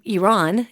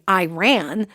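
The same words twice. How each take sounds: First: It does not sound like 'I ran'. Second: It sounds like the words 'I ran'. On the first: "if I were to pronounce it correctly" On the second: "which makes it sound like I'm, you know, escaping from a bear"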